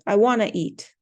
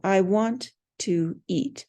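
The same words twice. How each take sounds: First: Want to is blended into the reduced form wanna. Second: Want and to are said as separate full words. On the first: The speaker calls it right. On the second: The speaker calls it wrong. "Nobody ever says want to"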